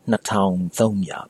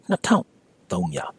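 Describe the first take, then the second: First: The second syllable keeps its full tone. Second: The second syllable has a dropped tone. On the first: "it's not wrong to say" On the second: "with a tone drop in the town"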